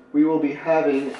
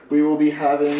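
The two takes are said the same way.

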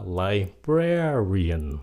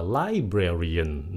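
First: LIBRARIAN slowly, as li-BRAR-ian; correct stress. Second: LIBRARIAN stressed as LI-brarian; wrong stress. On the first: Teacher corrects the mistake, slow li-BRAR-ian. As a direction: stretch the second syllable of LIBRARIAN. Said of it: "no, nó là librarian". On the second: Teacher shows the mistake, LI-brarian stressed up front. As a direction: wrongly hit the first syllable of LIBRARIAN. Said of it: "Không phải là librarian". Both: Shown as a demonstration.

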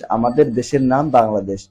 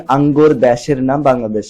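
First: "আমাদের" in full as a-ma-der; standard form. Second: "আঙ্গুর" as ang-gor for "our"; dialect form. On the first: Teacher converts for pupils, standard "আমাদের" as a-ma-der. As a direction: say standard "আমাদের" in three syllables. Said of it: "প্রমিত রূপে লিখতে হবে". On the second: Teacher reads the exercise, dialect "আঙ্গুর" as ang-gor. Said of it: "আঞ্চলিক বাক্যকে প্রমিত রূপে লিখতে হবে". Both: Shown as a demonstration.

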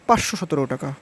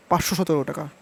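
No difference in how they are said.

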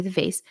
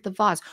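First: "vase" rhyming with "face"; vase as VAYSS. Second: "vase" with an "ah" and a z; vase as VAHZ. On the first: Declutterer correcting herself with the other option, "vase" said VAYSS. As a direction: say "vase" with a long A and an s. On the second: Declutterer on delivered flowers, still unsure of the word, "vase" said VAHZ. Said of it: "or the vase, whatever". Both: Shown as a demonstration.

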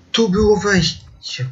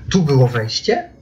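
First: Higher, struck by realising it; surprised realisation. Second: Said in the usual way. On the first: Real, not acted. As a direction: say it as it dawns on you. Realises the entrance was here.

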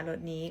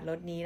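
The two takes are said the same way.

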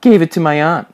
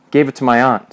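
First: High, loud mocking echo; mocking mimicry. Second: Said in the usual way. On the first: A narrator's reading. Major mimics Alfred's excuse, mocking mimicry. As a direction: parrot him in a raised, mocking voice. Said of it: "mimicked Major".

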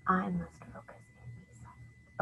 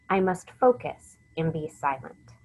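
First: Very soft, near-whispered word count; hushed counting. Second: Said in the usual way. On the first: Shown as a demonstration. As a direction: drop right down and tap out each word. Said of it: "I'm gonna do it again". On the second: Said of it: "Say it with me".

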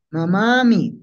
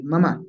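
First: "Mamá mi" with last a of mamá held long; louder, higher "Mamá mi", drawing out the maa; stretched A. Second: Said in the usual way. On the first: Shown as a demonstration. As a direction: hold the a before "mi". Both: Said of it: "Estiras la A".

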